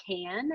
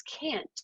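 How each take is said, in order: First: "can" said with a short open vowel, no final T. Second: "can't" with a crisp final T. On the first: Teacher contrasting can with can't: "can" without T. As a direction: say "can" plainly, the T-less word. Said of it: "Think about the difference in saying can". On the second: Teacher contrasting can with can't: "can't" with clear T. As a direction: land the T at the end of "can't". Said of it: "if I don't hear that T at the end". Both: Shown as a demonstration.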